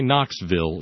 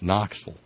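First: It is pronounced the way outsiders say it. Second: It is pronounced the way locals say it. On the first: The speaker is not from the area. The speaker calls it wrong. "don't say Knoxville. You'll give yourself away" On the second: The speaker is from the area. The speaker calls it right. "It's Knoxville"

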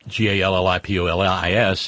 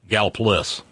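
First: The name is said with all its syllables. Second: The name is said with a syllable dropped. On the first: "Just like Gallipolis in Ohio is" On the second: "is Galpolis"

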